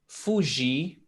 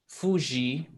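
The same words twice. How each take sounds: No difference in how they are said.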